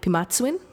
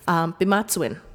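First: The word begins with a crisp p sound. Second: The word begins with a soft b sound. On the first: "sometimes you'll hear it like pimatsuin" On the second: "It kind of sounds like a B"

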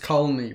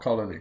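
First: The name is said with two syllables. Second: The name is said with three syllables. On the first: The speaker calls it right. "And it's Colony, by the way" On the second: The speaker calls it wrong. "It's not Colony"

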